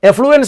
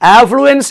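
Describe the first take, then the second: First: The first vowel sounds like 'e' in bed. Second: The first vowel sounds like 'a' in bad. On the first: The speaker calls it wrong. "എഫ്ലുവൻസ് അല്ല" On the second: The speaker calls it right. "ആഫ്ലുവൻസ് എന്നാണ്"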